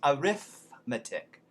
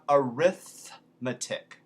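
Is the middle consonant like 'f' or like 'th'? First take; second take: f; th. First: The middle consonant is an 'f' sound. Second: The middle consonant is a soft 'th'. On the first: "so it becomes arithmetic" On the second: "that's a soft T H"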